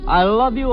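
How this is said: It is said forcefully, with rough intensity. "not like a caveman"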